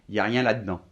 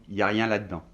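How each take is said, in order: The two takes are said the same way.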